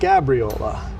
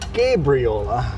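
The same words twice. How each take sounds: First: The name begins like the word Gabby. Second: The name begins like the word Gabriel. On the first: The speaker calls it wrong. "not like Gabby" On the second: The speaker calls it right. "So Gabriel like the angel"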